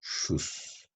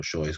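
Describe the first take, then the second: First: "Shoes" as a single shoos; one-syllable pronunciation. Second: "shoes" said Spanish-style as sho-es; read as spelled. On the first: Teacher shows one pronunciation, one syllable, "Shoes" as shoos. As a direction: say "Shoes" in one soft syllable, long final hiss. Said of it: "¿cómo se pronuncia?". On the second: Teacher voices the spelling mistake, "shoes" as sho-es. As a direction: say "shoes" in two syllables, SHO-ES. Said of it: "en inglés se escribe shoes". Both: Shown as a demonstration.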